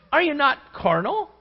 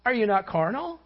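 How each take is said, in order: First: Carnal pressed loud and high; stressed question. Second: Said in the usual way. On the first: Shown as a demonstration. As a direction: hit "carnal" hard, rising. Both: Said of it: "repeated question".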